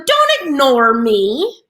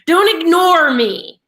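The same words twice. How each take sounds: First: Slow, pointed warning; exactly like that. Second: Louder, slow stern demand; firm telling-off. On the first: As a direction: spell it out word by word. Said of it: "Just like that". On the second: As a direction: put your foot down, slowly. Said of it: "But he's obviously emotional". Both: Retold or imitated.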